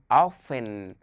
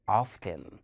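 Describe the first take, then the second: First: OFTEN with a silent T; American-style OFTEN, dropping the T; American pronunciation. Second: OFTEN with the T sounded; British-style OFTEN, clear T after the F; British pronunciation. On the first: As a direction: say OFTEN as "offen". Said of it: "In America, they say". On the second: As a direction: say OFTEN as "off-ten". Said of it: "but in British, they say". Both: Shown as a demonstration.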